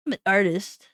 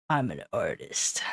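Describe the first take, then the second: First: Said in the usual way. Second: Soft whisper. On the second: Pretend. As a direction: whisper it proudly. Whispered then plain.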